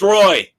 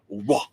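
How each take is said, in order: First: The name is said as 'roy', as it is spelled. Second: The name is said as 'wah', without the y sound. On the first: This is the plain way to say the name. "No, it's Roy" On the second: This is the fancy, proper way to say the name.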